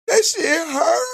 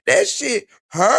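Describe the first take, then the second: First: Much higher, slow hammed-up wailing sob; exaggerated fake crying wail; mock wailing. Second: High, slow fake whimper; imitating a tearful complaint; mock crying. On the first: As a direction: howl it like an overdone crybaby. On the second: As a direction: whine it like a crybaby mocking her. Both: Mocking a crying woman's video.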